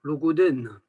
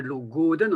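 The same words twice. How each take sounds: First: Logoden with the stress on final DEN; last-syllable stress. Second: Logoden with GO lengthened and stressed; penultimate stress. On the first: Teacher showing Vannetais usage, logoden stressed on DEN. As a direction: keep GO short, land on DEN in logoden. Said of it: "appuyer sur la dernière". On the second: Teacher showing Breton penultimate stress, stress on GO in logoden. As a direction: lean on the GO in logoden. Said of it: "on appuie sur l'avant-dernière". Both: Shown as a demonstration.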